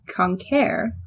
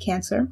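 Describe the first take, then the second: First: It is pronounced with Latin vowels and sounds. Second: It is pronounced with English vowels and sounds. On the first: "the word for crab in Latin" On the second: "anglicized, of course, we pronounce it Cancer"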